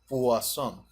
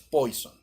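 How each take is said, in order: First: The first syllable sounds like 'pwa', French style. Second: The first syllable sounds like 'poi', not French. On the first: The speaker calls it right. "se pronuncia Poisson, la pronunciación en francés" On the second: The speaker calls it wrong. "no es Poison"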